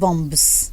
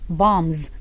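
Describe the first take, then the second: First: A B sound is heard after the M. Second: No B sound is heard after the M. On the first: The speaker calls it wrong. "not bombs" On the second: The speaker calls it right. "the B is silent. So you stop at M"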